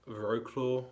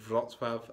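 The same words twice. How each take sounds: First: The name is said with an English-style pronunciation. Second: The name is said with a Polish pronunciation. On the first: The speaker calls it wrong. "and not Wrocław, or however, again, British people would pronounce it" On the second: The speaker calls it right. "the city I was in today was called Wrocław"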